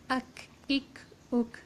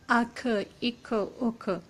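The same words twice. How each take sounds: First: The final k is light and clipped, without echo. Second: The final k bounces with an echoing release. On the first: The speaker calls it right. "it will not be heavy, it will be light" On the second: The speaker calls it wrong. "It has a now echoing sound, which is not correct"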